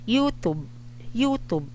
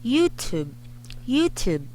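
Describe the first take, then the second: First: The T sounds are soft with no air puff. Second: The T sounds are popped with a puff of air. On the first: The speaker calls it wrong. "I did not say" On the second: The speaker calls it right. "listen to me say the letter T very very closely. I said te te [name] B T S"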